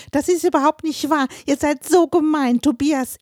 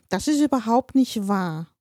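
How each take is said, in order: First: A much higher, much louder tearful scream. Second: Said in the usual way. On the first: A narrator's reading. Eleven-year-old daughter fleeing upstairs, screaming at the family. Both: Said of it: "brüllend".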